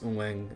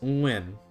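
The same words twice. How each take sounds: First: It is said with a southern Saigon pronunciation. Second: It is said with a northern Hanoi pronunciation. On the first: "in Saigon, it's Nguyen as well, but the tones are also different again" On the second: "in the Hanoi pronunciation"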